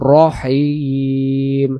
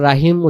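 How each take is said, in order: First: The first syllable sounds like 'ro'. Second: The first syllable sounds like 'ra'. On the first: The speaker calls it right. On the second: The speaker calls it wrong.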